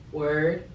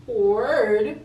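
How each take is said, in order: First: Said in the usual way. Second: Loud, higher, rising question; exaggerated astonished repeat; incredulous echo. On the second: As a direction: throw the word back in disbelief. Disbelieving echo of boyfriend's word.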